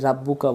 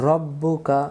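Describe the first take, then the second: First: "রাব্বুকা" with a plain open "a" in the first syllable; casual wrong reading of "রাব্বুকা" with a light "ra"; common mispronunciation. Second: "রব্বুকা" with a heavy, rounded "Ro" and doubled b; teacher's careful "রব্বুকা", full dark r; correct Quranic pronunciation. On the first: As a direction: say the mistaken "রাব্বুকা", "Rab-" rather than "Rob-". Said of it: "অনেকে ভুল করি". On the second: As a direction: model "রব্বুকা" carefully, "Rob-bu-ka" rather than "Rab-". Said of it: "অনেকে ভুল করি, রাব্বুকা বলি". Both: Shown as a demonstration.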